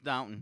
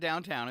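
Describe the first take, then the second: First: The second syllable sounds like 'tun'. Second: The second syllable sounds like 'town'. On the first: The speaker calls it right. "It's Downton" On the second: The speaker calls it wrong. "It's not downtown"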